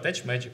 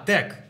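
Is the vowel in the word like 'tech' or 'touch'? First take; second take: touch; tech. First: The vowel sounds like the one in 'touch'. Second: The vowel sounds like the one in 'tech'. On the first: The speaker calls it wrong. "я неправильно читаю. Я чи прочитав" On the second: The speaker calls it right. "А як правильно?"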